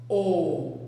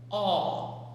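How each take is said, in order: First: The vowel is said with a closed sound. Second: The vowel is said with an open sound. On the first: "um som um pouquinho mais fechado" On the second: "ela sai com som aberto"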